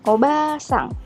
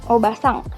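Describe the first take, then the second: First: The vowel after the b is held long. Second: The vowel after the b is kept short. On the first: It means grandmother. "dia dibaca panjangnya itu ... obasang" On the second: It means aunt. "hurufnya nggak dibaca panjang"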